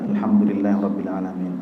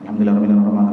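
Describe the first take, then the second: First: It is recited at a steady, normal pace. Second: It is recited quickly and hurriedly. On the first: This is the proper way to recite in prayer. The speaker calls it right. "Ketika sendiri ya sudah standar saja" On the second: The prayer is spoiled by rushing. The speaker calls it wrong. "Kemudian jangan"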